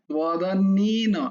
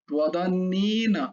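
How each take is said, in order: No difference in how they are said.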